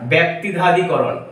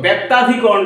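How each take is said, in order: First: The word keeps its full, harder consonant cluster. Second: The word is said with a simplified, easier cluster.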